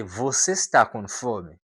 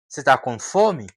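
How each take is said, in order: First: Said in the usual way. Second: "tá" clipped, você as se, louder; casual você tá com fome; reduced tá. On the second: Shown as a demonstration. ("tá" curto, mais forte) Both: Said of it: "Por exemplo".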